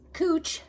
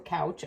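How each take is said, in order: First: The vowel sounds like the one in 'moo'. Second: The vowel sounds like the one in 'cow'. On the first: This is how the expert pronounces the term. "he said it cooch" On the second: This is how the speaker would naturally say it. "I would call it couch"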